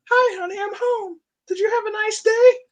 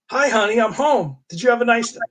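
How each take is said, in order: First: Very high mock wife voice; falsetto housewife. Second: Higher, louder hammed-up hubby hello; cheerful husband greeting. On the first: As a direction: squeak it like a cartoon sitcom wife. Same greeting redone in wife voice. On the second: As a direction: call it out like a sitcom dad coming home. Husband greets wife, voiced from comic.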